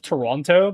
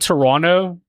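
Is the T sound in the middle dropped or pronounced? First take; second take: pronounced; dropped. First: The middle T sound is pronounced. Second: The middle T sound is dropped. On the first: The speaker sounds like someone not from Canada. "instead of Toronto" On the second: The speaker sounds like a local Canadian. "I started saying Toronto"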